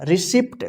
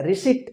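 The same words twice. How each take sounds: First: रिसिप्ट with an audible "pt" ending; mispronounced with P. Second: रिसिट ending in a plain T, no P; silent P. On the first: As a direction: voice the silent P in रिसिप्ट as a wrong example. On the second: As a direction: say रिसिट with the P dropped before T. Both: Shown as a demonstration. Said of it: "गलत हो गया".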